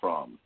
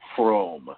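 First: The R is plain, not rolled. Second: The R is rolled with the tongue. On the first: The speaker calls it wrong. "not Fromm" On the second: The speaker calls it right. "She got to roll that tongue on the R"

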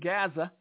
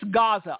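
First: It is said the way Southern politicians say it. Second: It is said with the standard pronunciation. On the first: The speaker calls it wrong. "as some southern politicians like to call it" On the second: The speaker calls it right. "it's Gaza"

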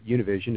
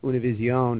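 First: The name is said with American English pronunciation. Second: The name is said with Spanish-style pronunciation.

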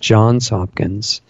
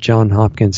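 First: The first name ends with an s sound. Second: The first name ends without an s sound. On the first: The speaker calls it right. "it's Johns Hopkins" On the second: The speaker calls it wrong. "you are mispronouncing that. Not that it matters, but it's not John Hopkins"

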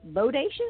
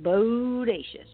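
First: The word is said quickly. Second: The word is said slowly. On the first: "you can say it fast" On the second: "or you can say it slow"

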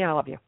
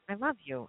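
First: It is said flatly, without feeling. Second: It is said slowly, with deep feeling.

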